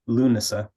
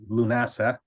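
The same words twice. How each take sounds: First: The middle vowel is a reduced schwa. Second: The middle vowel is a full vowel. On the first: "the middle syllable is like a schwa, so na" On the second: "rather than"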